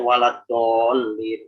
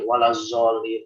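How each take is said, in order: First: The key consonant is said as a plain d. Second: The key consonant is said as a z. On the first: "jangan sampai buat ini menjadi dal" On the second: "atau menjadi zai"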